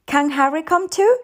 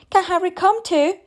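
First: Put-on high child's question, rising on "too"; small girl asking hopefully; pleading little girl. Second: High mock-child singsong question; imitating the little girl in frustration; exasperated mimicking. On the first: Child begs for Harry to come. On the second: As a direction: parrot a pestering child, fed up. Mother mimics the child's constant questions. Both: A narrator's reading.

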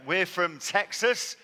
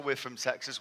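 First: Slow, loud, drawn-out Texan twang; mock Texan drawl. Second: Said in the usual way. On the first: Joking to a wet British crowd, a mock Texan drawl. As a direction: ham up a Texan drawl on Texas. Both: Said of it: "this is not a Texan accent".

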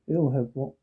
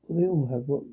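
The two takes are said the same way.

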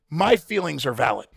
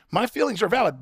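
First: "My" leaned on, falling; first take, stress on My. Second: "valid" lifted higher, then falling; second take, stress on valid. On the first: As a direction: stress the word "My" in "My feelings are valid". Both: Shown as a demonstration.

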